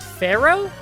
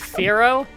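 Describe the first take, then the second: First: The name sounds like the word 'pharaoh'. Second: The name does not sound like 'pharaoh'. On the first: The speaker calls it wrong. "sometimes I pronounce it Pharaoh" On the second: The speaker calls it right. "I know it's supposed to be Firo"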